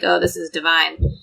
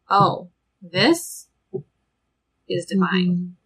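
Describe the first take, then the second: First: It is said in a light, casual tone. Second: It is said in a hushed, reverent tone. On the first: Something is merely very pleasant. "Not like" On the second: Something is holy and sacred. "in the most sacred sense of that word"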